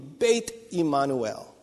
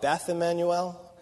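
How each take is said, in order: First: The name is said with a Hebrew pronunciation. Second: The name is said with an English pronunciation. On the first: The speaker calls it right. "But properly, it would be Beit Immanuel" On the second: The speaker calls it wrong. "That's an anglicizational. that's what English does to Hebrew"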